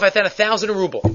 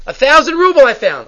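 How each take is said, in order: First: Said in the usual way. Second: Higher, louder amazed repeat. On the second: Retold or imitated. Finder staring into the wallet, amazed at the money. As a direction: marvel at the sum.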